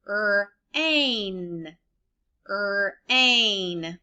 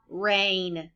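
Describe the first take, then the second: First: "Er-ain" split into two drawn-out sounds; segmented sounds. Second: Said in the usual way. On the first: Shown as a demonstration. Teacher sounding out rain for children to blend. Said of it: "you blend the sound that matches". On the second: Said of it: "What's the word?".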